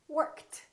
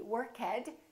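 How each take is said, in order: First: The ending is a plain T sound. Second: The ending is not a plain T sound. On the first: The speaker calls it right. "It's going to be T" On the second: The speaker calls it wrong. "is not going to be worked"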